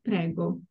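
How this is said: The pitch falls at the end of the word. It answers a thank-you, meaning you're welcome. "If the intonation goes down"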